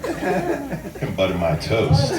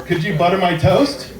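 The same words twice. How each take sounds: First: Very slow, drawn-out "toast" with a laugh; sexy tone. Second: Said in the usual way. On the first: Shown as a demonstration. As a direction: stretch it slow and suggestive. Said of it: "make it sound sexy by the tone of your voice". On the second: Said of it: "normal things you can say".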